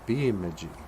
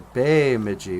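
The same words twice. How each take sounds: First: The first vowel is a short 'eh' sound. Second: The first vowel is an 'ay' sound. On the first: This is how outsiders came to say it. The speaker calls it wrong. "they start pronouncing it as a Bemidji" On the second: This is the original Ojibwe way of saying it. The speaker calls it right. "But it's a Bemidji because ... E's are A sounding"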